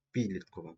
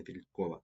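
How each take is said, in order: First: "підліткова" stressed on ПІД; PIDlitkova, stressing the first syllable of "підліткова"; correct first-syllable stress. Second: "підліткова" with the stress moved to -КО-; pidlitKOva, stressing the third syllable of "підліткова"; rejected word stress. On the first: Teacher models correct stress for pupils, "підліткова" stressed on ПІД. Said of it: "На перший склад". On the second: Teacher rejects the mistaken stress, "підліткова" stressed on -КО-. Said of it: "не підліткова". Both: Shown as a demonstration.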